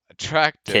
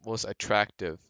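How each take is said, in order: First: "Attractive" repeated higher and louder, falling at the end; insistent correction. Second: Said in the usual way. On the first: Real, not acted. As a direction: hit "Attractive" firmly to correct a friend. Corrects friend who said "hot.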